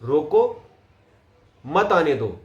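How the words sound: The pause comes after the first word. Stop him, don't let him come. "रोको पे पोज ले लूं, कोमा लगा दूं"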